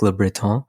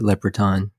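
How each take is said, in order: First: The name is said with a French pronunciation. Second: The name is said with an English pronunciation. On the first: It reflects the name's French origins. "it has like French, you know, origins. Um, so I guess you could say like" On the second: It is how the family usually says it. "my family typically pronounces it"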